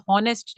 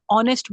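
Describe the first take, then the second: First: "हॉनेस्ट" with an audible H at the start; wrongly sounded H. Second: "ऑनेस्ट" starting on the vowel, no H; silent H. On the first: Teacher showing what is not said, "हॉनेस्ट" with H sounded. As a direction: say "हॉनेस्ट" pronouncing its H. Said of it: "हॉनेस्ट नहीं बोला जाता". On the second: Teacher showing how honest is said, "ऑनेस्ट" with H silent. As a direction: say "ऑनेस्ट" with the H dropped. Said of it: "ऑनेस्ट बोला जाता है". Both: Shown as a demonstration.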